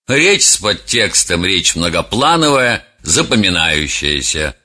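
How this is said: The voice sounds dismissive and disdainful. The speaker does not care about the listeners. "Человек, который относится с пренебрежением к слушателям"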